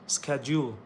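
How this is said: It is said with an American pronunciation. "Americans pronounce"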